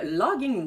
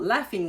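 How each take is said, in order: First: The middle consonant has no f sound. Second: The middle consonant is an f sound. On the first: The speaker calls it wrong. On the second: The speaker calls it right.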